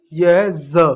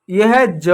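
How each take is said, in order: First: ज as buzzing "zuh"; Z sound. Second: ज as plain "juh", tongue stop; J sound. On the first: Teacher contrasts two letters, saying a buzzed Z. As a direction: buzz ज like a Z. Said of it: "तो ये हो जाता है ज". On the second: Teacher contrasts two letters, saying a plain J. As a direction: start ज with a hard J. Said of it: "ज के नीचे जब ये बिंदु". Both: Shown as a demonstration.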